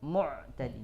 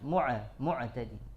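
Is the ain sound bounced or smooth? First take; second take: smooth; bounced. First: The ain is smooth with no bounce. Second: The ain bounces with an extra echo. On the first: The speaker calls it right. "ya mu'tadin" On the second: The speaker calls it wrong.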